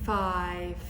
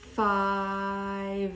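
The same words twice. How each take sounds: First: The final consonant is a voiceless f sound. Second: The final consonant is a voiced v sound. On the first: "do both of them a bit like an F" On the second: "turn the voice on for the last consonant"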